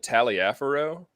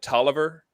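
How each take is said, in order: First: The name is said fully, as 'Taliaferro'. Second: The name is said shortly, as 'Tolliver'. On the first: This is how the speaker has always said it. "I've always called it Taliaferro" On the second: This is how some other people say it. "Some people call it Tolliver"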